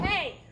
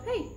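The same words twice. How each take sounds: First: It is said harshly and aggressively. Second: It is said gently and lightly.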